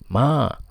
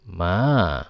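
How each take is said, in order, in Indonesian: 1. Nadanya tinggi dan datar. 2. Nadanya turun rendah, lalu naik lagi. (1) "dengan nada pertama yang tinggi, suara tinggi" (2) "dari tinggi ke rendah, kemudian naik ke setengah tinggi lagi"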